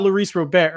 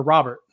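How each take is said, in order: First: Robert said French-style as roh-BEAR; Robert rhyming its end with "bear"; French-style pronunciation. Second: Robert said English-style as ROB-ert; Robert stressed on the first syllable, ROB-ert; English pronunciation. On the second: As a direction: say Robert with the T sounded. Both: Shown as a demonstration. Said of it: "I keep getting corrected one way or the other".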